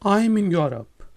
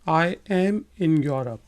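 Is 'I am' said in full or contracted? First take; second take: contracted; full. First: The words 'I am' are contracted to 'I'm'. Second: The words 'I am' are said in full.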